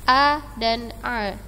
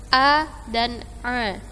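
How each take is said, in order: The two takes are said the same way.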